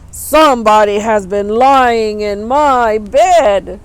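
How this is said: It is said in a great big bear voice.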